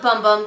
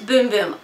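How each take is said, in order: First: The vowel is a short 'uh' sound. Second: The vowel is a long 'oo' sound. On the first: The name is read the way it is spelled. "I call it Bum Bum because I enunciate the way I see the letters" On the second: This is the official pronunciation of the name. "apparently it's Boom Boom"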